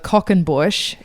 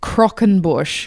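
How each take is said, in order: First: It starts with a plain 'c' sound, no r. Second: It starts with a 'cr' sound, with an r. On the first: The speaker calls it wrong. "last week I mispronounced" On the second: The speaker calls it right. "it actually it's Crockenbush"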